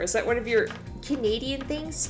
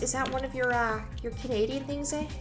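First: It is said in the speaker's ordinary accent. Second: It is said in a put-on Canadian accent.

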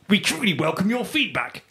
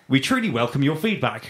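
First: The voice sounds odd and put-on. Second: The voice sounds normal and natural. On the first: The speaker calls it wrong. "That's not normal" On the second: The speaker calls it right. "in a normal voice"

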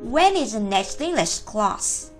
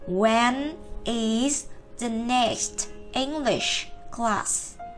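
First: The sentence is said quickly, words linked together. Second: The sentence is said slowly, word by word. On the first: "Nhanh nhé" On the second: "chúng ta cứ đọc từng từ một"

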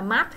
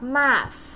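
First: The word ends with no s sound. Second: The word ends with a drawn-out s sound. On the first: The speaker calls it wrong. "math không, không có gì hết" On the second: The speaker calls it right. "phía sau nó có xì dài dài ra chút là cũng được"

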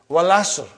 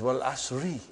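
First: The phrase ends without a final vowel. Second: The phrase ends with a final 'i' vowel.

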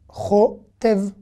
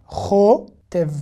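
The two takes are said the same way.

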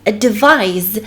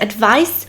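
First: The word ends with a voiced z sound. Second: The word ends with a voiceless s sound. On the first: It is the verb meaning to give counsel. The speaker calls it right. "to musicie wymówić z" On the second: It sounds like the noun meaning a piece of counsel. The speaker calls it wrong. "jeżeli powiecie advise, to będzie to brzmiało jak rada"

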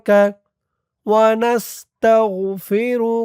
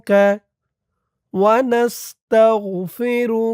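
No difference in how they are said.

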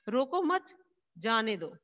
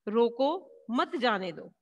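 First: There is a pause right after 'mat'. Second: There is a pause right after 'roko'. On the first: "रोको मत के बाद हमने coma लगाया" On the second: "रोको के बाद इसमें कोमा लगाया गया है"

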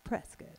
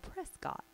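First: The ending sounds like 'kit'. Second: The ending sounds like 'cot'. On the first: The speaker calls it right. "It's like a biscuit" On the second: The speaker calls it wrong. "looks like it should be called Prescott"

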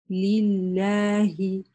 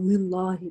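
First: The opening 'li' is clear and distinct. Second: The opening 'li' drifts toward a different sound. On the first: The speaker calls it right. "Нет. Ли, лилляхи" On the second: The speaker calls it wrong. "без склонения, например, к какой-то ли, например, лиллахи"

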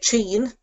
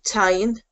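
First: The word begins with a ch sound. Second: The word begins with a t sound. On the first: This is the speaker's own dialect. "So I would say chin" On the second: This is how it is said in Munster. "If you're from Munster, you might pronounce it tyne"

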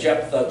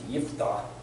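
First: The name is given an English pronunciation. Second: The name is given a Hebrew pronunciation. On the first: "we say Jephthah, generally speaking, amongst English speakers" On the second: "Hebrew would say, that's Yiftah"

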